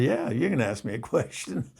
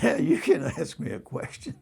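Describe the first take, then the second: First: Said in the usual way. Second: Higher, a laugh pushing through; holding back laughter. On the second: Retold or imitated. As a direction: answer while stifling a laugh. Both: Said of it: "I was holding back my laughter".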